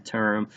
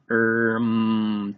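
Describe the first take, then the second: First: Said in the usual way. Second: "Term" as t, pause, long errmm; sounded out. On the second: Shown as a demonstration. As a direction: break "Term" after the t, stretching the rest. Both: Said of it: "Let's tap that one out".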